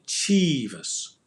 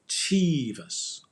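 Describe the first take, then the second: Both takes have the same delivery.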